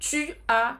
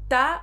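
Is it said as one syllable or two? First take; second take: two; one. First: Both words are said fully, as two syllables. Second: The words are merged quickly into one syllable. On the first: This is the correct written form. "gramaticamente correta" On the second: This is the faster, more fluid spoken form. "para ficar mais fluido, para falar mais rápido"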